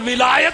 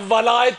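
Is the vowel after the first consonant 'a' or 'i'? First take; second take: i; a. First: The first vowel is an 'i' sound. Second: The first vowel is an 'a' sound.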